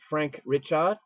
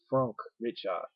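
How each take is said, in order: First: The name is pronounced with English sounds. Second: The name is pronounced with French sounds.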